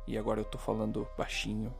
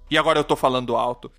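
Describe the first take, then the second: First: It is said quietly, in a whisper. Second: It is said loudly, at full voice.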